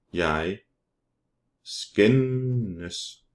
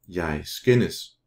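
First: "skændes" stretched long on the middle n; drawn out. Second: Said in the usual way. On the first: Shown as a demonstration. Teacher models Danish verb for learners, drawn out. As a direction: say "Jeg skændes" slowly, holding the n in "skændes".

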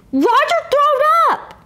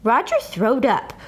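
First: "Roger throwed up!" yelled much higher and louder; high tattling holler. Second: Said in the usual way. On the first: Acted. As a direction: shout the news. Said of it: "I hollered out".

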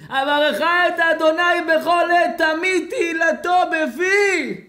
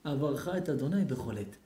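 First: High, loud, drawn-out wailed verse; hammed-up weeping chant; mock tearful wail. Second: Said in the usual way. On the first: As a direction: bawl the verse slowly, as if crying. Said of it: "על מה אתה בוכה". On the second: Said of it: "הפסיק לבכות".

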